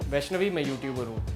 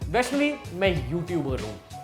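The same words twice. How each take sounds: First: It sounds dry, cold and shy. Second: It sounds friendly and fun.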